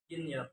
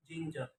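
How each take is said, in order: First: "ginger" with y for the j sound; learner's mispronunciation. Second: Said in the usual way. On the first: Shown as a demonstration. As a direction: say "ginger" as "ginyer". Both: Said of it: "is pronounced".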